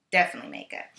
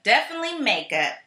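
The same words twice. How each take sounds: First: Definitely makeup dropped much lower; low repeat. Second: Said in the usual way. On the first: Shown as a demonstration.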